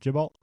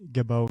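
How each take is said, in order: First: The name ends with an 'lt' sound. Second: The name ends with an 'oh' sound. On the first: The speaker calls it wrong. "I think we've been pronouncing it" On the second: The speaker calls it right.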